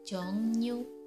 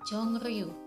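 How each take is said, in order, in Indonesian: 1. Konsonan tengahnya terdengar seperti ng dan n. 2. Konsonan tengahnya terdengar seperti ng dan r. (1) "yang benar pengucapannya adalah jongnyu" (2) "harusnya dibaca jongriu"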